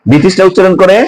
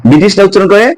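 The two takes are said the same way.

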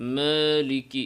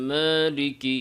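First: The long a is said with the mouth barely open. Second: The long a is said with the mouth barely open.

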